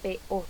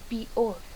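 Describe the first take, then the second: First: The e is said as a clear e. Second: The e is closed so it sounds like i. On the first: The speaker calls it right. "debería decirse" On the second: The speaker calls it wrong. "En cierre de la vocal E... hasta pronunciarse prácticamente como una I"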